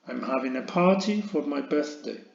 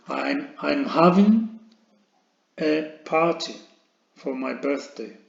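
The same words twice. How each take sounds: First: Said in the usual way. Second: Slow dictation. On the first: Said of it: "whole sentence after chunks". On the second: Shown as a demonstration. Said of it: "teacher dictating sentence in chunks".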